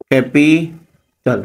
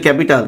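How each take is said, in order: First: capital slowly split as ক্যা, পি, টাল; syllable by syllable. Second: Said in the usual way. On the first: Shown as a demonstration. Teacher showing three syllables in capital, separating each one. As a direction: break capital into three syllables with clear pauses. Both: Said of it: "তাহলে এইটা একটা syllable".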